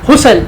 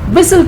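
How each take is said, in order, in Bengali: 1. প্রথম স্বরাংশটি একটি সাধারণ 'hoo' ধ্বনি। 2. প্রথম স্বরাংশে একটি 'wi' গ্লাইড ধ্বনি আছে। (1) "এরকম বলে না হুসেল, হুসেল বলে কিছু হয় না" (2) "হুইসেল কিন্তু"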